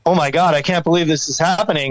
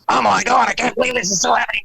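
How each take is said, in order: First: It is said in his own voice. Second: It is said in a Beavis and Butthead voice.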